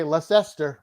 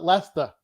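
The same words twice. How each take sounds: First: Leicester read as leh-SESS-ter, all letters sounded; the outsider's Leicester in three syllables; spelled-out Leicester. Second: Leicester said as LESS-tuh, two syllables, no r; Boston Leicester. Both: Shown as a demonstration. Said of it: "We just call it Leicester".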